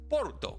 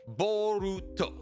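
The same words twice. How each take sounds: First: The word is said quickly and clipped. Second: The word is said slowly and fully.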